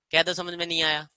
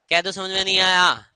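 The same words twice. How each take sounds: First: Said in the usual way. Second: Louder insistence. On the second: Shown as a demonstration.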